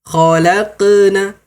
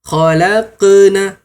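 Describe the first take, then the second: The two takes are said the same way.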